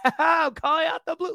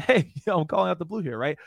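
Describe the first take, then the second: First: Much higher, louder manic villain laugh-talk; crazy Joker voice. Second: Easy natural chuckle, louder start; natural laugh. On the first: Retold or imitated. Trainer showing the wrong laugh, manic Joker delivery. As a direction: cackle the line like a mad villain. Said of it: "You don't wanna sound crazy like the Joker". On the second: Shown as a demonstration. Trainer showing the right laugh, easy friendly chuckle. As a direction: laugh lightly like you mean it. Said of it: "So this is, like, my laugh".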